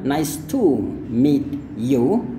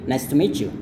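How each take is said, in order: First: Each word is said fully and separately. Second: 'Meet you' is joined with a ch sound. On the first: The speaker calls it wrong. "Jadi ini bukan nice to meet you, bukan kayak gitu lagi" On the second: The speaker calls it right. "tapi nice to meet you"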